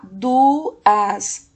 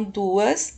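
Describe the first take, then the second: First: DUAS loudly split as DU... AS; teacher separating DU from AS; syllable by syllable. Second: Said in the usual way. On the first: Shown as a demonstration. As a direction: sound out DUAS in two stretched beats. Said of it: "a segunda sílaba". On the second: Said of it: "que é a última da palavra duas".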